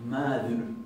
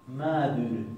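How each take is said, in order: No difference in how they are said.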